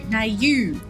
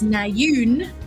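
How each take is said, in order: First: The name ends on a vowel sound. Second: The name ends with an n sound. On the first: The speaker calls it right. "There's an N at the end, but there's just Nayu" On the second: The speaker calls it wrong.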